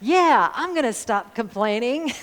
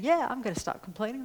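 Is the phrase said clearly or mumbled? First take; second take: clearly; mumbled. First: The words are spoken clearly and distinctly. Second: The words are mumbled quietly and indistinctly. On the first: "I said" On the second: "I always mumble when I say something that I don't think anybody wants to hear"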